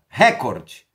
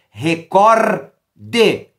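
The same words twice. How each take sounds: First: The stress is on the first syllable. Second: The stress is on the second syllable. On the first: It is the English word. The speaker calls it wrong. "essa palavra é proparoxítona" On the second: It is the Portuguese word. The speaker calls it right. "a prosódia correta dessa palavra em língua portuguesa"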